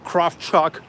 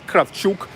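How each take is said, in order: First: The name is said with an American pronunciation. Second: The name is said with a Russian pronunciation. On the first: This is how people in the United States say it. "in the United States, you guys say Kravchuk" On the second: This is how locals say it. "here we pronounce it Kravchuk"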